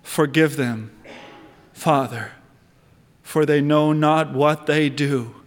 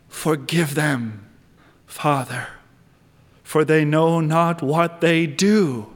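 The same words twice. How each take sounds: First: Tender plea. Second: Hushed repeat. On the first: Retold or imitated. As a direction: lower voice, say it gently as a dying prayer. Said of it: "what did he say". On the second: Shown as a demonstration. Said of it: "repeat of the quote".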